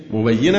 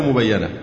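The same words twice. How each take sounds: First: مبينة with an i after the doubled y, "mubayyina"; kasra on ya. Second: مبينة with an a after the doubled y, "mubayyana"; fatha on ya. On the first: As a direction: say مبينة as mu-bay-yi-na. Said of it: "أو مبينة". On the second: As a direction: say مبينة as mu-bay-ya-na. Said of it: "وكسرها". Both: Shown as a demonstration.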